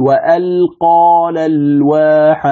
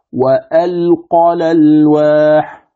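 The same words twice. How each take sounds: First: Slow level recitation, ق vowel of "وألقى" stretched; wrong madd. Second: Slow level recitation, no stretch on the ق of "وألقى"; correct, no madd. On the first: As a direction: chant "وألقى الألواح" slowly with a long alif after the ق. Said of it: "يمد الألف التي بعد القاف". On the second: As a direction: chant "وألقى الألواح" slowly with the vowel after ق cut short. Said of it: "هذا الصواب". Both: Shown as a demonstration.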